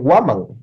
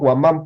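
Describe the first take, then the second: First: The stress is on the first syllable. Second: The stress is on the last syllable. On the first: The speaker calls it right. "Es Guamán" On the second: The speaker calls it wrong. "mal dicho"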